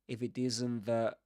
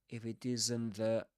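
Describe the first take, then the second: No difference in how they are said.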